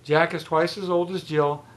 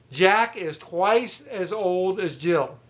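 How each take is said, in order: First: Said in the usual way. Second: Slow, deliberate, each word spelled out; slow emphatic teaching. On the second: Shown as a demonstration. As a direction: dictate it slowly to the class.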